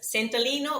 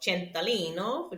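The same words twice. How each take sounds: First: The name is said with an English accent. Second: The name is said with an Italian accent.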